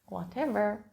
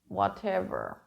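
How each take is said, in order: First: It is said in a relaxed, friendly tone. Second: It is said in a sarcastic, dismissive tone. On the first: The speaker does not mind which option is chosen. "When you say whatever in a friendly or relaxed way" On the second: The speaker does not care about the other person's feelings. "with an eye roll or in a sarcastic tone"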